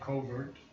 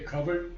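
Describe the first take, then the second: First: The word is given an American pronunciation. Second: The word is given a British pronunciation. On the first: "In America, we say covert" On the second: "this is the British pronunciation"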